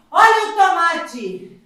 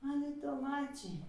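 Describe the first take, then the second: First: Loud, slow sing-song vendor call; rhyming market barker. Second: Soft fading vendor call; quiet. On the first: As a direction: holler the tomatoes across the market. Loud vendor call vs quiet repeat. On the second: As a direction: let the call die away softly. Barker call fades to quiet. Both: Acted.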